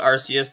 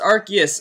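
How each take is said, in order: First: The c is said with an s sound. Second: The c is said with a k sound. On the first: This is a personal habit. "I just call it Arceus" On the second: This is the official pronunciation. "it's actually pronounced Arceus"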